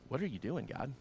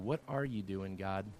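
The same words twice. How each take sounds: First: It sounds skeptical and accusatory. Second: It sounds trusting and curious.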